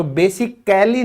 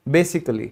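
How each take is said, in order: First: Basically with a full a, ba-si-kal-ly; wrong basically. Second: Basically as bay-sik-lee, a silent; correct basically. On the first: Teacher slowly shows the wrong basically. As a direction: stretch basically out with the a sounded. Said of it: "basically नहीं बोलते". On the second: Teacher gives the right basically. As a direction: say basically with the a dropped. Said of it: "इसको बोलेंगे basically". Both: Shown as a demonstration.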